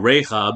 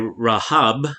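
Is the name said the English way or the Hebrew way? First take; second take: English; Hebrew. First: The name is said with an English pronunciation. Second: The name is said with a Hebrew pronunciation. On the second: "I'm going to say Rahab for her"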